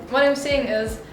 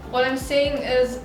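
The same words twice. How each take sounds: The two takes are said the same way.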